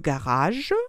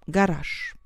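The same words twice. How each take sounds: First: The word ends with a voiced zh sound. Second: The word ends with a voiceless sh sound. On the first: "En français, on dit le garage" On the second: "le son ch qui remplace le son j"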